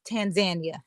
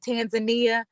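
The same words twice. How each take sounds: First: It uses a different, less familiar pronunciation. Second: It uses the familiar everyday pronunciation. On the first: The speaker calls it right. "correct pronunciation that I'm now aware of" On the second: The speaker calls it wrong. "we would normally say"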